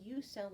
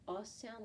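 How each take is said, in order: First: "U" said as "yoo", like its name; long U sound. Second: "uh" as the short vowel of umbrella; short U sound. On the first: Teacher giving U's second sound, a long "yoo". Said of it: "and the U sound". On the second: Teacher giving U's first sound, a short "uh". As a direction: say "uh" on its own. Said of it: "The U has the". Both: Shown as a demonstration.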